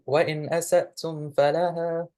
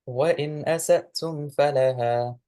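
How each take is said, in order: First: The voice rises at the end. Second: The voice falls at the end.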